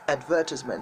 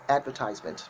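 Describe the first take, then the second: First: The word is said with a British pronunciation. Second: The word is said with an American pronunciation. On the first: "But that's not the way British people call the word. The word is called advertisement" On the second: "if you want to sound more American, you have to say advertisement"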